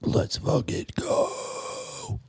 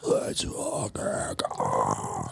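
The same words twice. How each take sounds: First: Hushed scream on an unvoiced breath; whisper yelling. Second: Lower, breathy scream without voice; whisper yelling. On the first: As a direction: yell it but only in a whisper. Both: Shown as a demonstration. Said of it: "I learned about whisper screaming".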